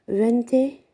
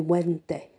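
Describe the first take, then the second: First: The word begins with a V sound. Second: The word begins with a W sound.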